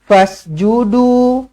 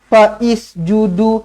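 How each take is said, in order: First: The s follows 'fa' directly, with no added vowel. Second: An extra 'i' vowel is sounded before the s. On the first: The speaker calls it right. "hamzah wasal pada tengah-tengah kalimah tidak tidak berfungsi" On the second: The speaker calls it wrong. "Jangan dibaris-bariskan"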